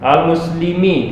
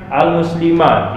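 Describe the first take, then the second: First: The word ends with the vowel i. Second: The word ends with the vowel a. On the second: "Tidak dibaca dia"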